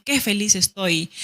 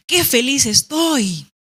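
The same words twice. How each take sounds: First: Said in the usual way. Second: Higher, slow, delighted; joyful exclamation. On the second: Shown as a demonstration. Teacher demonstrating an exclamation to students. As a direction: savor the happiness in it. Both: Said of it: "Por ejemplo".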